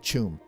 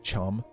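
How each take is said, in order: First: The vowel is a long oo sound. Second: The vowel is a short uh sound. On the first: The speaker calls it right. "Say Choom" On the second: The speaker calls it wrong. "not Chum"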